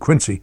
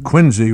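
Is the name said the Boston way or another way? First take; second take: other; Boston. First: The name is said the usual non-Boston way. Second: The name is said the local Boston way. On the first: This is how outsiders would say the name. "rather than" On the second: This is how the locals say the name. "as they pronounced it in Boston"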